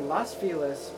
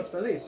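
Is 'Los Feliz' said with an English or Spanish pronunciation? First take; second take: English; Spanish. First: It is said with an English pronunciation. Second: It is said with a Spanish pronunciation. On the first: "people say Los Feliz because Los Angeles for the Los" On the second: "Los Feliz, yeah, yeah. Which means happy"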